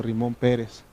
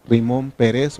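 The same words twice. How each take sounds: First: Pérez said as PE-res, stressed at the start; stress on first syllable. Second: Pérez said as pe-RES, stressed at the end; stress on last syllable. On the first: Teacher giving the second of two readings, Pérez stressed on the first syllable. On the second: Teacher giving the first of two readings, Pérez stressed on the last syllable. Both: Shown as a demonstration. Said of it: "entonces es las dos cosas".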